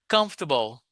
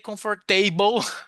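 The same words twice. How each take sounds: First: The ending is a short, weak reduced syllable. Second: The ending sounds like the full word table. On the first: The speaker calls it right. "No, no. Comfortable" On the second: The speaker calls it wrong. "Never say comfortable"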